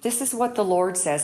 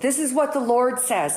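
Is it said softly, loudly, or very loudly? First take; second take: softly; loudly. First: It is said at a normal, soft volume. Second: It is said louder than the first time.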